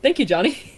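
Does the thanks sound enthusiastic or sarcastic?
enthusiastic. The thanks sounds warm and enthusiastic. The thanks is sincere. The speaker calls it right. "I actually have enthusiasm"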